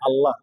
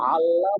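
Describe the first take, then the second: First: It begins with a light glottal catch. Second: It begins with a tight throaty sound. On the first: It means God. The speaker calls it right. "হামজা বললে হয় আল্লাহ" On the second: It becomes another word meaning above. The speaker calls it wrong. "যদি আইন বলি"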